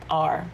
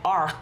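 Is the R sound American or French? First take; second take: American; French. First: The R is made with the tongue, American style. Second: The R is made back in the throat, French style. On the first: "the American R? ... to me it's just so easy. It's like R" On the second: "their R's, like R. It's more in your throat"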